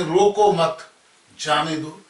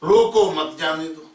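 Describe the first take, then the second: First: Group "रोको मत" as one phrase, pause, "जाने दो"; comma after मत. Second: "रोको" louder, then "मत जाने दो" run together; comma after रोको. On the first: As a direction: break clearly after "मत", before "जाने दो". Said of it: "यदि इधर कॉमा लगाते हैं". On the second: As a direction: keep "मत जाने दो" as one unbroken phrase after "रोको". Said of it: "कॉमा लगाते हैं". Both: Shown as a demonstration.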